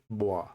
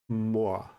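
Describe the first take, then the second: First: The first consonant is denasalized, close to b. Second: The first consonant is a full nasal m. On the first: "it's usually boy" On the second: "instead of sounding like more"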